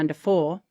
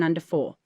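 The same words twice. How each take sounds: First: The voice rises at the end. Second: The voice falls at the end. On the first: The speaker calls it wrong. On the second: The speaker calls it right.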